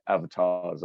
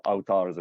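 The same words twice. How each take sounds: First: Said in the usual way. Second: "avatars" said the Hindi way; Hindi pronunciation. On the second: Shown as a demonstration. Host showing the Hindi word, "avatars" pronounced as in Hindi. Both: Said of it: "as we say in, in, in Hindi".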